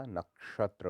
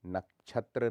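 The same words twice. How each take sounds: First: Said in the usual way. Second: नक्षत्र said as nak-chhatra; chh for sh. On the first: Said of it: "होता है". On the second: Shown as a demonstration. Teacher shows the error, नक्षत्र with chh. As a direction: put chh in the middle of नक्षत्र. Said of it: "नहीं होता".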